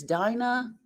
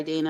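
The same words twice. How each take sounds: First: "Dinah" with a long I as in dine; "Dinah" said DYE-nah; wrong name. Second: "Dina" with a long E as in dean; corrected "Dina", DEE-nah; corrected name. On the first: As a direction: say "Dinah" rhyming with China. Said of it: "I don't know if it's Dinah or Dina". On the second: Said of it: "but I'm sorry, Dina". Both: Shown as a demonstration.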